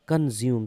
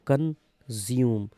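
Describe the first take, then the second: First: Said in the usual way. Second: consume slowly split as कन, ज्यूम; teacher slowly sounding out consume in two parts; broken into syllables. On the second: Shown as a demonstration. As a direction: pause between कन and ज्यूम in consume. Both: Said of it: "word देखो".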